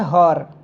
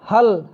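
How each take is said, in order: First: The word ends with an r sound. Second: The word ends with an l sound. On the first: This is the Awadhi dialect form. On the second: This is the standard Hindi form.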